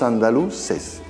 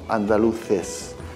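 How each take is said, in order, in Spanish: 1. La 'c' se pronuncia con sonido 's'. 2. La 'c' se pronuncia con sonido 'th'. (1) "decimos andaluces" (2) "no decimos andaluces"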